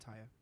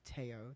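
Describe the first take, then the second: First: The name begins with an I vowel sound. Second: The name begins with an A vowel sound. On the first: The speaker calls it right. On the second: The speaker calls it wrong.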